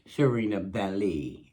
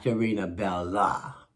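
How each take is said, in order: First: The name ends with an 'ee' sound. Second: The name ends with an 'ah' sound. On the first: The speaker calls it right. "with a Lee at the end" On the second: The speaker calls it wrong. "not a La at the end"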